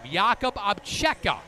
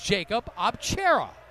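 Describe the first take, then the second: First: The name is pronounced the Slovak way. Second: The name is pronounced the English way. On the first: This is the name used in his native country. "his given Slovakian name" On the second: This is the name he prefers to go by. "his English-speaking name"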